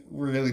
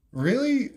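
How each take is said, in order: First: Said in the usual way. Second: High, stunned "Really?" with a sharp rise; "Really?" jumping way up in disbelief; can't believe what he just saw; incredulous. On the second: Retold or imitated. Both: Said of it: "that's gotta be a joke".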